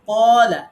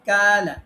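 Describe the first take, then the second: First: The first consonant is heavy and deep. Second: The first consonant is light and thin. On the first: The speaker calls it right. "কফ কখনো কাফের মতো বারিক করে পড়া যাবে না" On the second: The speaker calls it wrong. "এখন এটা বারিক করলে কি হয়?"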